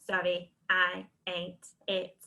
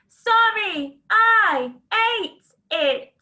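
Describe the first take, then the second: First: The sentence is said in a robotic voice. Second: The sentence is shouted loudly. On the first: "Can you robot it?" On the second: "Can you shout it?"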